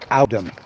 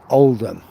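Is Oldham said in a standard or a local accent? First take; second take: local; standard. First: It is said in a local Oldham accent. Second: It is said in a standard accent.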